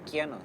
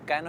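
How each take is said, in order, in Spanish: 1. El nombre empieza con un sonido de deslizamiento 'kya'. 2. El nombre empieza con un sonido 'ka' simple. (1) "en realidad se dice Kiano" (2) "Cano está mal pronunciado"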